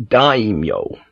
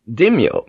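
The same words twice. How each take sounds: First: Daimyo said as DIE-myo, drawn out; "daimyo" with a long "eye" sound, slowly; corrected daimyo. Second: Daimyo said wrongly as DIM-yo; "Daimyo" with a short first vowel, dim-yo; mispronounced daimyo. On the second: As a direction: say "Daimyo" as two syllables, DIM-yo. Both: Acted. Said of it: "Oh, I mean daimyo".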